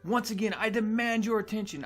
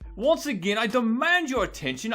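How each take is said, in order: First: It is said in a normal accent. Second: It is said in a British accent.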